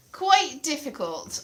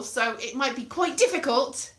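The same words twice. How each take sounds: First: Slow, leaning on "quite"; stretched "quite difficult" with stress on quite; emphatic repeat. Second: Said in the usual way. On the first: Real, not acted. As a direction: drag out "quite difficult" for weight.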